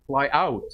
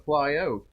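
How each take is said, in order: First: Said in the usual way. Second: "out" with a Canadian raised vowel, like "oat"; Canadian "out", almost "oot"; Canadian accent. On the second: Real, not acted. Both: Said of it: "there's my Canadian accent".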